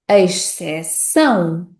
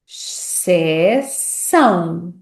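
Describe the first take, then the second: First: The first syllable sounds like 'eis'. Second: The first syllable sounds like 'sh'. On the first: "ex, se, são" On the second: "x, se, são"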